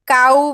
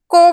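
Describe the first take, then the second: First: The vowel sounds like 'ow', as in 'now'. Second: The vowel sounds like 'oh', as in 'go'. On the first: The speaker calls it right. "CO W काऊ बोलतो" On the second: The speaker calls it wrong. "CO W को बोलतो का आपण, नाही"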